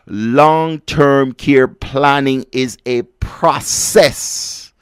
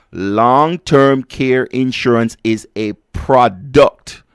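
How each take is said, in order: First: Long-term care planning set against product, slowly; slow contrast. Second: Long-term care insurance said slowly, a bit louder; slow emphatic repeat. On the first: Host contrasting planning with insurance, slow and deliberate. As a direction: weigh process against product. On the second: Host repeating for listeners who missed it, slow and emphatic. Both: Shown as a demonstration. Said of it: "Hear me properly".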